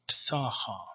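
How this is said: The vowels are pronounced as A, Eastern style.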